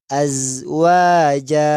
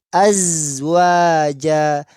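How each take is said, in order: The two takes are said the same way.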